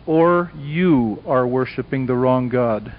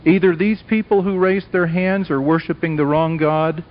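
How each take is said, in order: First: Slow, lower, with "you" set apart and weighted; stress on YOU. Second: "these people" lifted as the first alternative; stress on these people. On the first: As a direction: land the contrast deliberately on "you". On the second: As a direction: set up the contrast on "these people". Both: Real, not acted. Sets two groups against each other.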